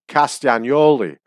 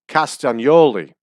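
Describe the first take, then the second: Both takes have the same delivery.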